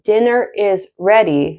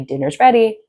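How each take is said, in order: First: The word 'is' is said in full. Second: The word 'is' is contracted onto 'dinner'. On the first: "instead of saying" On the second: "you can just say"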